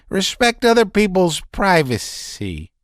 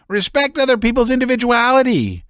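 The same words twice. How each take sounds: First: High, strained, nervous voice; a man near hysterics pouring it out; agitated Laevsky. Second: High, fast, cutting in; Laevsky cuts him off, rattled; agitated interruption. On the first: Laevsky's outburst. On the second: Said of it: "interrupted Laevsky". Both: A narrator's reading.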